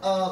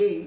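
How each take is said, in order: First: আহ as a short, open "uh"; in-sentence article pronunciation. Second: এই said as the letter A, "ay"; letter-name pronunciation. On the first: Teacher shows class "a" inside a sentence, short আহ. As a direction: reduce the article to a brief আহ. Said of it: "এটার উচ্চারণ তখন". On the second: Teacher shows class the alphabet sound, এই as "ay". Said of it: "alphabetically উচ্চারণ করব". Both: Shown as a demonstration.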